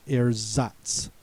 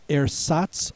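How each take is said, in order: First: "Ersatz" with a z in the middle, as air-zahts; "Ersatz" with a buzzing middle z; alternative pronunciation. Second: "Ersatz" with an s in the middle, as air-sahts; "Ersatz" with a hissed, voiceless middle s; first pronunciation. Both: Shown as a demonstration. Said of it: "also pronounced Ersatz".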